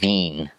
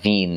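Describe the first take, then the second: First: The word is drawn out through the nose. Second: The word is short and plain. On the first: "it trails like Wien, Wien, just holding it through their nose as long as possible" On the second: "Wien is how you pronounce it"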